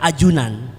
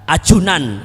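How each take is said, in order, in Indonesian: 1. Konsonannya diucapkan tanpa hembusan napas. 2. Konsonannya diucapkan dengan hembusan napas. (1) "yang benar ajunan, tidak semua harus diaspiratkan" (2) "itu salah"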